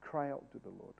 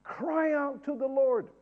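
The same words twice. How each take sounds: First: Barely audible mumble, much softer; mumbled plea. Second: Higher, slow, pleading call; crying out. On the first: Preacher mumbling a prayer to the congregation, quiet. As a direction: mumble it under your breath. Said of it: "you cannot cry out to the Lord". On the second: Preacher urging the church to pray, crying out. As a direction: lift it up as a real cry. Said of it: "a cry". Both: Shown as a demonstration.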